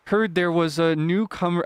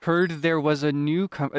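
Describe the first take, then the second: First: Slow, lightly voiced fisherman; tentative Willy voice. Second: Slow fisherman, crisply enunciated consonants; enunciated Willy voice. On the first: Fisherman greeting a newcomer, tentative slow attempt. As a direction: try out a slow, careful fisherman voice. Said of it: "he speaks slowly". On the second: Acted. Fisherman greeting a newcomer, slow and carefully enunciated. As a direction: gradual rise and fall, carefully enunciated. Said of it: "he also really enunciates his".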